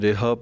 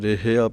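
First: It starts with re and ends in a. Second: It starts with re and keeps the final ia. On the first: "ਕਈ ਰੇਹਾ ਪੜ ਜਾਂਦੇ ਹਨ" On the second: "ਕਈ ਰੇਹਿਆ ਪੜ ਜਾਂਦੇ ਹਨ, ਰਾਰੇ ਨੂੰ ਸਿਹਾਰੀ ਲਾ ਦਿੰਦੇ ਹਨ, ਉਹ ਗਲਤ ਹੈ"

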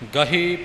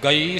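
First: An h sound is heard in the middle. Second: No h sound is heard in the middle. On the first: The speaker calls it right. "ਗਹੀ ਪਾਠ ਹਾਹੇ ਨੂੰ ਬਿਹਾਰੀ ਲਗਾ ਕੇ ਹੈ" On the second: The speaker calls it wrong. "ਨਹੀਂ"

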